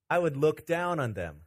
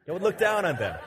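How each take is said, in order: First: Said in the usual way. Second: Said through a laugh; laughing at his own pun. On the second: Real, not acted. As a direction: chuckle through the repeat. Joke on looking down literally.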